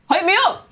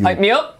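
First: It is said with more hype energy. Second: It is said with less energy.

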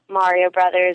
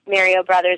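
First: Mario Brothers is said the American way. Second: Mario Brothers is said the Canadian way. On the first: This is the way others expect it to be said. "instead of" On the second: This is the speaker's own habitual way of saying it. "I still get made fun of for some of the words that I say"

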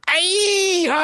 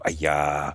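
First: It is said very loudly. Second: It is said quietly.

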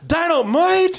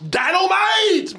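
First: J.J. says it hesitantly, sounding unconvinced. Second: J.J. says it confidently, with full enthusiasm.

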